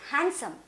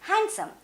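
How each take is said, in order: First: The d sound is left out. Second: The same.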